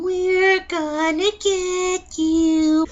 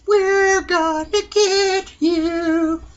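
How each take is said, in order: First: High, very slow, eerie "We're gonna get you"; drawn-out horror-movie child taunt; Evil Dead baby. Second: High slow eerie chant; sung, creepy sing-song. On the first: Retold or imitated. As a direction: stretch it out like a demon child. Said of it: "call that baby the Evil Dead baby". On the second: Pretend. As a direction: sing it like a haunted child. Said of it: "outro reprise of creepy line".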